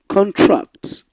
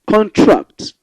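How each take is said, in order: No difference in how they are said.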